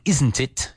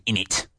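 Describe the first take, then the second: First: Said in the usual way. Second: Cockney "in it", run into one word as innit. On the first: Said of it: "instead of saying". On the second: Shown as a demonstration. Teacher showing Spanish speakers London slang, Cockney accent. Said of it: "you say".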